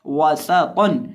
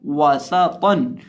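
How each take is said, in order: First: वासातन said wrongly, slowly, lips not rounded and स without whistle; the incorrect वासातन to avoid; a wrong demo वासातन. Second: वासातन with rounded वा, whistling स and a heavy तौ; वासातन with hissing स and thick तौ; correct way. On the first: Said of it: "वासातन नहीं". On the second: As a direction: slowly model the right वासातन. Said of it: "सीटी की आवाज़ ... तौ को मोटा". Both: Shown as a demonstration.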